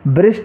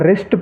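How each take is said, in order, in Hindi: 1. शब्द r से पहले w जैसी आवाज़ से शुरू होता है। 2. शब्द सीधे r की आवाज़ से शुरू होता है। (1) "ब्रिस्ट नहीं पढ़ना है" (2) "इसको हम रिस्ट पढ़ेंगे"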